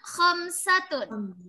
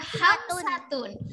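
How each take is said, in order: First: It begins with a raspy, snore-like throat sound. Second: It begins with a soft, plain breathy h sound. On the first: The speaker calls it right. "Jadi kayak orang ngorok gitu" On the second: The speaker calls it wrong. "bukan ha, bukan hamsatun"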